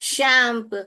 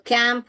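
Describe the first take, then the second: First: The word begins with a sh sound. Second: The word begins with a k sound.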